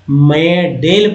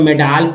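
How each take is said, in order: First: The second syllable has an e vowel. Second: The second syllable has a long aa vowel. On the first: "नहीं पढ़ने आता तो मेडेल पढ़ते" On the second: "नहीं पढ़ने आता तो मेडाल पढ़ सकते थे"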